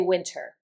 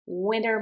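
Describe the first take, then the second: First: The T is pronounced as a clear T. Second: The T is soft and sounds like a D. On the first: "It's okay if you say winter" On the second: "quiet on the T. The T almost sounds like a D. This is an American English pronunciation"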